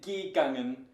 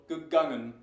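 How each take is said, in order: First: The prefix vowel is a full, clear e. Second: The prefix vowel is a weak schwa. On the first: The speaker calls it wrong. "You wouldn't say gegangen unless you had some verbal problem" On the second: The speaker calls it right. "So gegangen"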